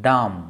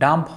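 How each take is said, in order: First: The word ends in m with no b sound. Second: The word ends with an audible b sound. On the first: The speaker calls it right. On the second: The speaker calls it wrong. "ডাম্প হয় না"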